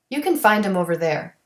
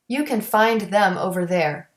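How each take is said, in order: First: The TH in 'them' is dropped. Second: The TH in 'them' is clearly pronounced.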